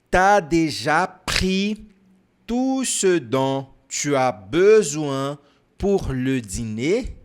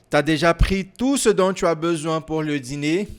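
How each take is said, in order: First: The sentence is said more slowly. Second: The sentence is said at a normal, quicker pace.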